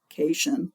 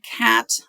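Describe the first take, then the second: First: It is said to rhyme with 'vacation'. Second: It is said like 'cat' plus 'ion'. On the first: The speaker calls it wrong. "I know it looks like cation, like a vacation or something" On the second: The speaker calls it right. "listen to how I pronounce this word"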